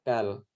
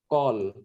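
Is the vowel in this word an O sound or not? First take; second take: not O; O. First: The vowel is pronounced without an O sound. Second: The vowel is pronounced as an O sound. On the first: The vowel mark is the short kamats. "Kamats katan itu dibaca kal" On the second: The vowel mark is the long kamats. "Kamats gadol itu dibaca O"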